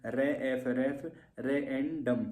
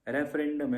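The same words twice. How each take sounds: First: रेफरेंडम pulled apart slowly as रे, एफ, रेफ, रेएंडम; broken into syllables. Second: Said in the usual way. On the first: Shown as a demonstration. Teacher demonstrating syllable counting to students, slow separate chunks of रेफरेंडम. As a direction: spell out रेफरेंडम piece by piece. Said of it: "syllable count कर लो". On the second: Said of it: "spelling को break कर लो".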